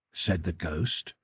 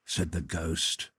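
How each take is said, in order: Both takes have the same delivery.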